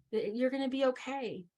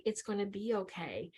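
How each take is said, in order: First: Said in the usual way. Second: Compassionate. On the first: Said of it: "When I'm talking like this". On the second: Shown as a demonstration. Speaker showing helpers how to soothe, soft compassionate tone. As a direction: soothe them gently, in an even rhythm. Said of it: "I'm talking in compassion".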